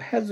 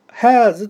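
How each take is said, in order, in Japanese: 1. 母音は短く保ちます。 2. 母音は長く伸ばします。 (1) "has はこれ短母音ですからね" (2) "長母音でこう発音されていたんですけど"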